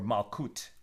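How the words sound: It is said in a Sephardic style, ending in t.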